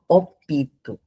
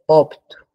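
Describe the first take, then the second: First: An extra i vowel is inserted between p and t. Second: The p and t are joined with no vowel. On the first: The speaker calls it wrong. "coloca o E depois do I" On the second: The speaker calls it right. "É opto, não tem esse I"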